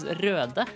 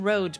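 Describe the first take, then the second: First: The vowel is a rounded Scandinavian 'ö' sound. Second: The vowel is a plain English 'o' sound. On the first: It follows the name as it is written. "what it actually says is Röde" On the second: It is adapted for English-speaking listeners. "I'm saying Rode because I'm talking to English speakers"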